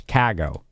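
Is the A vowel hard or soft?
hard. The A vowel is hard, with extra force. The speaker calls it right. "there's like that that extra oomph"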